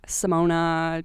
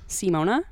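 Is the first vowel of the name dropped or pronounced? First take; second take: dropped; pronounced. First: The first vowel is dropped or barely sounded. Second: The first vowel is clearly pronounced as ee. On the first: The speaker calls it wrong. "They would say, yeah, Simona. They just wouldn't pronounce the I" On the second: The speaker calls it right. "They just wouldn't pronounce Simona"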